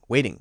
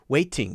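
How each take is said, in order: First: The middle consonant is a very light d. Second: The middle consonant is a heavy, strong d. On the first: The speaker calls it right. "It's a very light D sound" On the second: The speaker calls it wrong. "instead of waiting"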